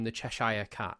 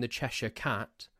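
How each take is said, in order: First: Cheshire in Cheshire Cat ending like "shyer"; American mispronunciation. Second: Said in the usual way. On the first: Shown as a demonstration. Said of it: "call him the Cheshire Cat". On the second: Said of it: "It's the Cheshire Cat".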